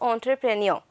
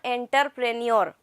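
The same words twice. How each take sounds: First: The first part is not said like 'enter'. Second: The first part is said like 'enter'. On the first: The speaker calls it right. "the pronunciation over here is entrepreneur" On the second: The speaker calls it wrong. "not entrepreneur. It looks very shabby when you are pronouncing it like that"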